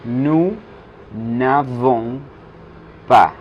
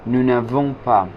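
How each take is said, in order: First: "Nous n'avons pas" word by word, n fused onto avons; joined ne, slow. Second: "nous n'avons pas" in one phrase, nou-navons-pa; joined ne. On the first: Teacher showing nosotros no tenemos, spaced out with ne elided. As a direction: separate nous, navons, pas with long pauses. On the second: Teacher showing how ne sticks to avons, connected phrase. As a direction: run it together, n fused onto avons. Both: Shown as a demonstration. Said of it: "el ne se pega del verbo avons".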